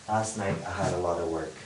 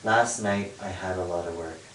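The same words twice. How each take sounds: First: The words are squeezed together and heavily reduced. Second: The words are said with fuller sounds.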